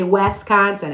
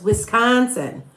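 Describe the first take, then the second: First: "Wisconsin" with first syllable said like "Wes"; outsiders' mispronunciation. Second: "Wisconsin" opening on a short-i "Wis"; slow, deliberate "Wisconsin" with "Wis" as in "wish"; local pronunciation. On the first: Local mimicking out-of-towners, mispronounced "Wisconsin" opening like "Wes". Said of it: "All you people that don't live here say". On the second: Local correcting outsiders, deliberate "Wisconsin" with a short-i first syllable. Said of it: "because I say it right". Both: Shown as a demonstration.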